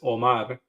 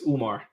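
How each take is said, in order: First: The name is said with a Spanish pronunciation. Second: The name is said with an Arabic pronunciation. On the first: "In Spanish is"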